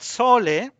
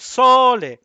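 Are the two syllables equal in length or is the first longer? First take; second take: equal; first longer. First: Both syllables are held for equal length. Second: The first syllable is stressed and longer. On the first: The speaker calls it wrong. "it has the same duration" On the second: The speaker calls it right. "that's natural"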